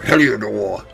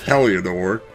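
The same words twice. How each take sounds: First: The name is said in a grand, mighty way. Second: The name is said in a plain, ordinary way.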